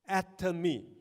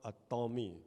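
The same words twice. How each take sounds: First: It begins like the word 'atom'. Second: It begins like the words 'a Tom'. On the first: The speaker calls it right. "it's atom may, which is atom me" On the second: The speaker calls it wrong. "don't change it to an atomy, because it is not a Tom"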